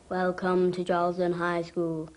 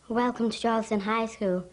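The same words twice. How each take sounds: First: It is said in a deep, confident voice. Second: It is said in a nervous, timid voice.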